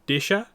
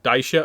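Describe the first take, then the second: First: The first vowel is a short 'i' sound. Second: The first vowel is an 'ai' sound. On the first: The speaker calls it right. "the pronunciation is Disha" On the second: The speaker calls it wrong. "rather than I've been saying Daisha up to now"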